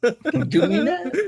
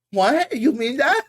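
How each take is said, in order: First: High, slow, laughing neckbeard squeak; mock the incel in a high voice. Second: High, whiny incel voice; neckbeard voice. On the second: Retold or imitated. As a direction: squeak it out like a basement neckbeard. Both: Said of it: "Is that your neckbeard voice?".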